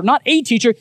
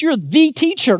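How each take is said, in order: First: "a" said small and quick, "teacher" carries on; light "a". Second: "the" punched high and long, like the one and only; stress on THE. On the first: Jesus contrasts the teacher with a teacher, "a" unstressed. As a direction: throw away the "a" in "not a teacher". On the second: Jesus tells Nicodemus he is the teacher, "the" stressed. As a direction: lean hard on "the" in "You're the teacher". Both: Shown as a demonstration.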